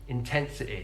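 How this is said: The word ends in a short 'i' vowel. "the I sound on words ending in Y"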